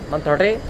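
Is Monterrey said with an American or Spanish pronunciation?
Spanish. It has a rolled R and short vowels. The speaker calls it right. "really cool words like Monterrey"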